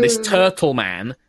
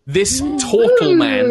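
First: Said in the usual way. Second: "this turtle man" high, loud and slow; emphasized. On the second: Shown as a demonstration. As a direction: lift and stretch "this turtle man".

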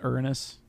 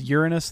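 First: "Uranus" said as ER-nus; rejected pronunciation. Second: "Uranus" said as YOOR-nus; corrected pronunciation. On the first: Co-host quotes the disputed name back, "Uranus" as ER-nus. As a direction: drop the Y, "Uranus" like Ernest. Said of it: "though, not Uranus?". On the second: Co-host questions how the sailor is named, "Uranus" as YOOR-nus. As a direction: start "Uranus" with a clear Y sound. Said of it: "Isn't it pronounced". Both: Shown as a demonstration.

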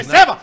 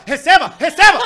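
First: Said in the usual way. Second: Loud, rising Receba shouts with laughter; repeated Receba shouts. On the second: Retold or imitated. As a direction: shout it louder each time. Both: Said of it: "Tentem imaginar".

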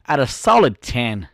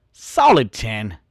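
First: Said in the usual way. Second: "Solid ten" drawn out slowly, each word weighted; slow emphatic repeat. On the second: Shown as a demonstration. Bragging to viewers about his looks, slow emphatic repeat. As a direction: let "Solid ten" sink in, slow and deliberate.

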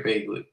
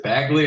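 First: Bagley said with a long A, as in bay; Bagley, opening with a "bay" sound; name with long A. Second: Bagley said with a short A, as in bag; Bagley, opening with a flat-out "bag" sound; name with short A. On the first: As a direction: say the first syllable of Bagley like "bayg". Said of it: "I read them differently". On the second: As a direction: say the first syllable of Bagley like "bag". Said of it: "I always butcher the names". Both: Shown as a demonstration.

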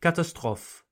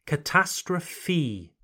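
First: Catastrophe said French-style, ka-ta-STROF, no final E; French catastrophe for contrast. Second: Catastrophe said slowly, kuh-TAS-truh-fee, final E clear; slow English catastrophe. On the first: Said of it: "not quite the same as the French". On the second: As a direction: stretch Catastrophe out slowly for learners. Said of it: "we pronounce the final E sound". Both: Shown as a demonstration.

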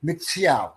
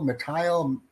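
First: Mitziel said as MITS-ee-al, with a ts sound; correct name pronunciation. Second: Mittal said as muh-TILE, with a plain t sound; wrong name pronunciation. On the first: Shown as a demonstration. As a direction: Mitziel repeated carefully as MITS-ee-al. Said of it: "So it's like Mitchell, except with a Haitian flair". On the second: Real, not acted. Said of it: "It's Mitziel".

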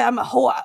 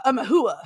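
First: Said in the usual way. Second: Put-on Sopranos accent. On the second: Joking about the name they call her, in a mild Sopranos accent. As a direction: say "hooah" with a hint of Sopranos New Jersey. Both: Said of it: "Is that a Sopranos reference?".

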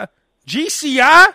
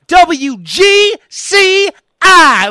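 First: Unsure answer with a questioning lift; mock hesitant guess at the call letters; confused. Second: Very slow, drawn-out station letters, pitched up; professional voice person. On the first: Everyone else asked their station, confused questioning answer. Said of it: "it's always confusion". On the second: Retold or imitated. Listener names favorite station, polished drawn-out announcer delivery. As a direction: spell it out with great conviction like radio talent. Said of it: "they sound like it's actual voice person".

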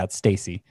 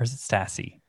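First: Stassi said as "STAY-see"; long-A Stassi. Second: Stassi said as "STASS-ee", softly; short-A Stassi. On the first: Host settling on the catcher's name, long-A Stassi. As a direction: give Stassi the vowel of "stay". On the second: Host doubting the catcher's name, short-A Stassi. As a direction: say Stassi with the vowel of "cat". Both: Real, not acted. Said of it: "getting hung up on pronunciation".

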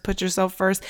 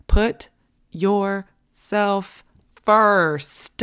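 First: Said in the usual way. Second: "put ... yourself ... first" word by word, very drawn out; slow emphatic delivery. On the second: Shown as a demonstration. Host drumming self-care into moms, slow and emphatic on "put yourself first". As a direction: stretch out "put yourself first", landing hard on "first". Hammers the rule home, word by word.

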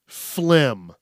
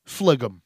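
First: Said in the usual way. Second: Phlegm said as two syllables, FLEG-um; own mispronunciation. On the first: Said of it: "How you spell it". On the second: Shown as a demonstration. Sharing a childhood name, Phlegm as FLEG-um. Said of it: "I still call it this".

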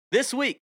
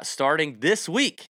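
First: Week jumped up high and punched; stress on this week. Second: Steady announcement of the week; just state when it starts; plain. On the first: Host stressing the start date to listeners, emphatic. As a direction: hit WEEK hard, way up high. Host announcing new schedule. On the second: Host announcing the new schedule, plainly. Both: Real, not acted.

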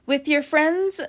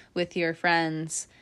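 First: FRIENDS lifted high in a rising question; questioning repeat. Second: Said in the usual way. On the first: Real, not acted.

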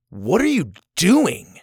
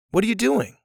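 First: Drawn-out accusing question; angry. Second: Light, high, friendly question; innocent curiosity. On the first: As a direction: ask it slowly and higher, cross about what they're doing. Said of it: "I'm angry with what you're doing". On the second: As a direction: ask it curiously, with no edge at all. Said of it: "innocent curiosity of like". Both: Shown as a demonstration.

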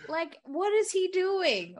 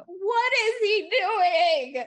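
First: High, slow exasperated question. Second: Loud, very slow, high-pitched wail; exasperated wail. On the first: Fan baffled by William's blabbing, exasperated. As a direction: stretch it out in disbelief. Mock exasperation, first take. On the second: Fan baffled by William's blabbing, wailing in exasperation. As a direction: drag out every word, loudly aghast. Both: Real, not acted.

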